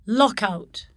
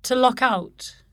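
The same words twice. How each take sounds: First: "Lockout" as one noun, LOCK-out; stress on first element. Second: "To lock out" as a verb, weight on OUT; stress on particle. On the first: Teacher shows the noun, "Lockout" stressed on LOCK. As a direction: hit LOCK in "Lockout", lighter on out. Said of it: "differ in stress". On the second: Teacher shows the verb construction, "To lock out" stressed on OUT. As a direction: keep "out" strong in "To lock out". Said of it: "corresponding verb construction". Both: Shown as a demonstration.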